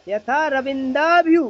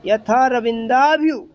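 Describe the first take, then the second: First: Verse phrasing. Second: Prose phrasing. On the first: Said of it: "इसको ऐसा पढ़ना चाहिए". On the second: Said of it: "गद्य में होता तो हम ऐसे पढ़ते हैं". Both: Shown as a demonstration.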